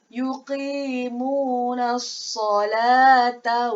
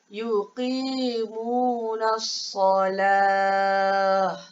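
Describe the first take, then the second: First: The last word ends with a t and vowel. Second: The last word ends in a breathy h sound. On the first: The reader continues without stopping. "Kekalkan dia dengan huruf ta" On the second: The reader stops here. "Ustazah jadikan dia huruf ha"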